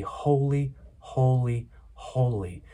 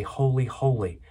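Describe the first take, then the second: First: "holy, holy, holy" slowly, each word set apart by a pause; weight on every "holy", stepping down to the last; emphatic repetition. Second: Said in the usual way. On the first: Shown as a demonstration. Preacher showing Hebrew repetition for emphasis, "holy, holy, holy" slow and emphatic. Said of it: "emphatic emphasis that there is no one like this". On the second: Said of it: "normally it would just say".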